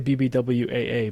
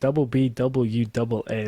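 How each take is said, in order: First: Every letter is read out one at a time. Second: Repeated letters are read with the word double. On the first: The speaker calls it right. "I would say B B W A A" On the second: The speaker calls it wrong. "Like that. uh, weird, weird way of doing that"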